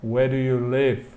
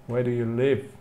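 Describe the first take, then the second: No difference in how they are said.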